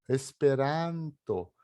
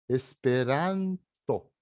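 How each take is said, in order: Both takes have the same delivery.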